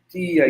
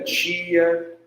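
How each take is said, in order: First: The t is a plain dental stop. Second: The t sounds like a ch sound. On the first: "T sem ser chiado" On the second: "T chiado"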